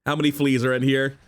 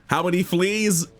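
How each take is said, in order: First: Said in the usual way. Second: Amazed. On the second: Real, not acted. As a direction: repeat "How many fleas?" in disbelief.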